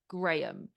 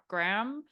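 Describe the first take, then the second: First: The name is said with a non-American pronunciation. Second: The name is said with an American pronunciation. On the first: "we say" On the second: "I know Americans say"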